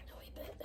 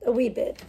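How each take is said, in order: First: Much softer, almost silent; faint echo. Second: Said in the usual way. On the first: Real, not acted. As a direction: breathe it to yourself.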